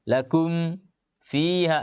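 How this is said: There is a short break after lakum. The speaker calls it wrong. "Ini namanya sakta"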